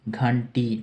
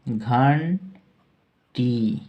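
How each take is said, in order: First: Said in the usual way. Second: घंटी drawn out very slowly, syllable by syllable; teacher stretching out घंटी; slow dictation. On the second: Shown as a demonstration. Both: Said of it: "bell का अर्थ है".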